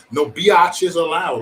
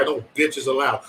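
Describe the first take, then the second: First: "biatches" stretched into bee-AH-ches; slow down and draw out "biatches"; playfully stretched word. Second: Said in the usual way. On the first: Real, not acted. Host repeats the rule over here, "biatches" playfully drawn out.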